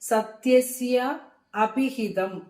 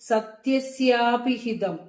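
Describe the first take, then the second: First: The two words are said separately. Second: The two words are joined into one.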